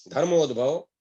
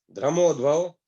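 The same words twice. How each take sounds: First: धर्मोद्भव said properly as "धर्-मोद्-भव" with the r after the a; careful fix: धर्मोद्भव, "धर्मोद्भव" clearly articulated; corrected reading. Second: धर्मोद्भव misread as "द्रमोद्भव", r moved before the a; stumbling misreading of धर्मोद्भव as "द्रमोद्भव"; slip of the tongue. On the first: Reciter repeats धर्मोद्भव to correct it, saying "धर्-मोद्-भव" carefully. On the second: Reciter trips over the tirtha name धर्मोद्भव, garbling it as "द्रमोद्भव". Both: Real, not acted.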